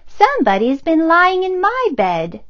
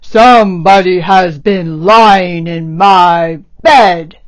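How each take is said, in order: First: It is said in a middle-pitched bear voice. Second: It is said in a rough, gruff bear voice.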